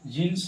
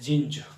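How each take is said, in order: First: The word ends with a hissing s sound. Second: The word ends with a buzzing z sound. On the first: The speaker calls it wrong. "जीन्स नहीं" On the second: The speaker calls it right. "Correct pronunciation जीन्स नहीं होकर ये जींज कहलाता है"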